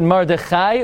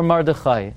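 First: First "Mordechai" ending like "eye". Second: Put-on second "Mordechai" ending like "boy". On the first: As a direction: say "Mordechai" as Mor-de-KHAI. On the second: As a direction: say "Mordechai" as Mor-de-KHOY. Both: Shown as a demonstration. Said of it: "is it Mordechai or Mordechai".

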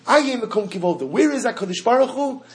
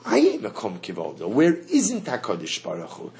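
First: Higher, calling out Aye Mekom Kivodo as a plea; searching question. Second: Lower, settled Aye Mekom Kivodo; declarative answer. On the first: Teacher voicing the seeker's cry, higher and louder. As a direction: pitch it up, searching for God. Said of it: "The concept, Aye". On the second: Teacher voicing the answer, lower and settled. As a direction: state it calmly down low. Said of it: "And then, of course". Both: Shown as a demonstration.

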